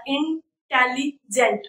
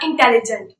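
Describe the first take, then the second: First: इंटेलिजेंट split slowly as इन-टेलि-जेंट; slow teacher's breakdown of इंटेलिजेंट; broken into syllables. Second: Said in the usual way. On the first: Shown as a demonstration. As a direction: say "इंटेलिजेंट" slowly, pausing between its parts. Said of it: "इंटेलिजेंट को थोड़ा तोड़कर". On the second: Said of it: "खुद pronounce कीजिए".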